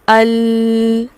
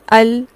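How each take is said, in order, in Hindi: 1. अंतिम व्यंजन की ध्वनि बहुत ज़्यादा खींची गई है। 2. अंतिम व्यंजन की ध्वनि केवल मध्यम रूप से रोकी गई है। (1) "अल ऐसे नहीं पढ़ते हम इनको" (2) "सिंपल दरमियानी सी हालत में इनकी अदायगी है"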